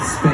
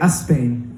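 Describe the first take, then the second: First: The word starts directly with the s sound. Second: An extra vowel sound comes before the word. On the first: This is the usual English way. "instead of Spain" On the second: This is how Spanish speakers say it. "you guys say a Spain"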